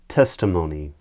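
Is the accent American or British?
American. It is said in an American accent.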